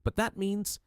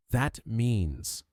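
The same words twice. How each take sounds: First: High, stunned, cut-off realisation; breaking off in shock. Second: Said in the usual way. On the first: A narrator's reading. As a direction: she stops mid-thought, horrified. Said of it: "Lady Constance staggered backward". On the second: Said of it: "Poirot interrupted".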